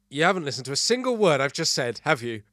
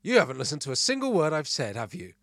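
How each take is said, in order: First: Loud, raised-pitch mock telling-off; hammed-up reproach; acted scolding. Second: Mildly raised, louder wife's scolding; half-hearted yell of reproach; mock scream. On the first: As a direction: play an exasperated partner accusing. Acted partner's scolding in joke. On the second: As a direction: play an irritated wife telling off. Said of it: "My wife screamed".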